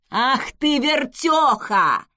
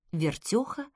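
First: Loud, drawn-out scolding yell; angry yell. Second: Said in the usual way. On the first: A narrator's reading. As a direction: roar down at her. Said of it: "заорал он на неё сверху". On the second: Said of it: "Вертёха, ветрогон".

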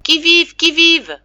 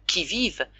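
First: High, loud challenge into the fog; shouted call. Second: Said in the usual way. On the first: A narrator's reading. Father groping toward family, calling loudly. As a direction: call out blindly through the dark. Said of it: "en criant". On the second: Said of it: "bien connu".

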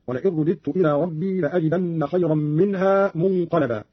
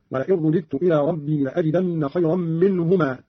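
First: Said in the usual way. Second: منهما read as dual, "minhuma"; dual form. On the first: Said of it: "قرأ قالون". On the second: Shown as a demonstration. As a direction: end on منهما, min-hu-maa. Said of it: "على التثنية".

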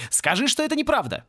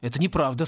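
First: High, urgent plea to deny it; pleading cry. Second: Said in the usual way. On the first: A narrator's reading. Distraught professor to Порри, pleading cry. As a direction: cry out, begging for reassurance. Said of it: "закричал он". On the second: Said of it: "сказал Порри, которому надоело расстраивать бедного профессора".

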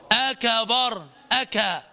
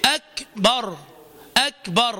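First: "أكبر" as "akabar", full A after K; voweled K. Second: "أكبر" as "ak-bar", light air on K; correct still K. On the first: Teacher showing the error of moving the letter, voweled K. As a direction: open the ك of "أكا" into "ka". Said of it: "أو أن تحرك الحرف". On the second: Teacher modelling the right kaf, still aspirated K. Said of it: "ننطق الكاف هكذا". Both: Shown as a demonstration.

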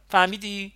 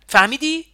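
First: A louder, pointed question; angry challenge. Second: فهمیدی؟ yelled, much higher and louder, rising; shouted question. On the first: Acted. Ali challenging Nima, sharp and louder. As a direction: throw the question at him. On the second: A narrator's reading. Nima shouting فهمیدی؟ back at Ali. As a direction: throw فهمیدی؟ back at him at full voice. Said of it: "نیما هم صدایش رو بالا برد".

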